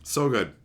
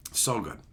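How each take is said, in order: First: Said in the usual way. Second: Quieter, lower echo of the line; softer repeated murmur. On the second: Shown as a demonstration. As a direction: let it fall away under the breath. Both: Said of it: "repeated line".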